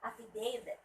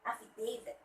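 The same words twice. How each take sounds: Both takes have the same delivery.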